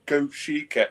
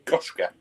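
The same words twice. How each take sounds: First: Goshiki said go-SHEE-keh; retold pronunciation attempt. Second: Goshka said as two syllables, GOSH-kuh; mock correction. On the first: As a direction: say Goshiki in three syllables, as if reading it out. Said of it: "I did pronunciations the other night". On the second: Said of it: "It was taking the mick out of me".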